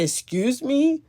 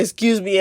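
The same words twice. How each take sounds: First: A higher, bewildered "Excuse me?" rising at the end; startled question. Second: Offended "Excuse me," with sass; with attitude. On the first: Woman startled by a stranger's remark, bewildered. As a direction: ask "Excuse me?" as if you can't believe it. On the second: Woman affronted by a stranger in a laundry room, sassy. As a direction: put some attitude on "Excuse me,". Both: Retold or imitated. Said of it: "in an attitude where I was like".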